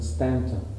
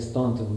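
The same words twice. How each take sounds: First: The name is said the Southern local way. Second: The name is said a non-Southern way. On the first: This is how local Southerners say it. "The Southerners pronounce it Staunton" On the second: This is the speaker's own habitual way. "I always say Staunton"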